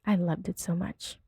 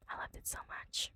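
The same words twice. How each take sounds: First: Said in the usual way. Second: Very soft whispered repeat. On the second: Real, not acted. Gushing over the tweet, whispered. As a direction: say it again under your breath, whispering.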